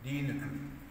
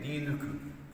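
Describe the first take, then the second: First: The vowel after the n is a rounded u. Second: The vowel after the n is a rounded u.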